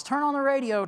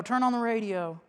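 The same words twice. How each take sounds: First: Urgent, higher alarm; man rushing in urges the church to listen, urgent; urgent call. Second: Said in the usual way. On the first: Retold or imitated. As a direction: burst in calling for the radio. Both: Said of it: "runs in from the parking lot and says".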